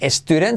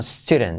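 First: The word does not start directly with s. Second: The word starts directly with an s sound. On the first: The speaker calls it wrong. "no digas student" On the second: The speaker calls it right. "Semiclave S al principio de palabra"

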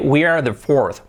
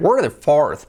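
First: We are is said as two full words. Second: We are is contracted into one syllable.

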